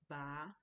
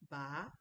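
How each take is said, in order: The two takes are said the same way.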